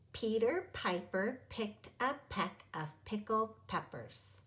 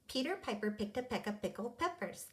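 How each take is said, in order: First: The line is read at a slower pace. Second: The line is read at a faster pace.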